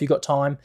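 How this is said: It is said quickly with an urgent, pressing tone.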